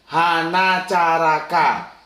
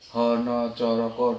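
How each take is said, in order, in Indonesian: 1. Vokalnya semua bunyi 'a' terbuka. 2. Vokalnya semua bunyi 'o' bulat. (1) "itu mereka yang Sunda. Kalau dibaca spelling Sunda" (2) "Banyakan hurufnya itu O O O O semua"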